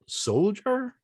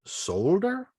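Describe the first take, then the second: First: Said in the usual way. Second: "solder" said sol-der, with a hard d; pronounced as spelt. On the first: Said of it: "and not soldier?". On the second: Shown as a demonstration. Speaker questions English spelling, soldier said with a plain d. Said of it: "Is it because it would be".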